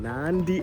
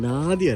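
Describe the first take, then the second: First: It is said with an n before the d. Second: It is said with a plain d sound. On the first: The speaker calls it right. "നാൻഡി എന്നാണ് ഇവർ പറയുന്നത്" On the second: The speaker calls it wrong. "നാദി അല്ല നാദി അല്ല കേട്ടോ"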